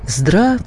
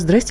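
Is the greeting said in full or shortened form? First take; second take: full; shortened. First: The greeting is said with all its syllables. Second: The greeting is clipped to two short syllables. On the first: The speaker calls it right. "а «здравствуйте»" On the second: The speaker calls it wrong. "нет такого слова «здрасте»"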